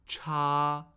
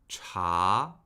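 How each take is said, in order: First: The pitch stays high and level. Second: The pitch rises steadily. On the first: "Cha, first tone" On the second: "Now the second tone"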